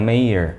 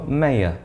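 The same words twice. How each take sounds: First: It is said in an American accent. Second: It is said in a British accent.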